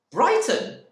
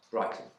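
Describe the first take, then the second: First: High, loud, outraged scream of the word. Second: Said in the usual way. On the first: Acted. Wife screaming at her husband's answer, outraged. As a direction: shriek it back at him in disbelief. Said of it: "she screamed".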